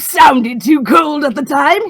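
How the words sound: It is delivered in a manic mad-scientist way. "mad scientist"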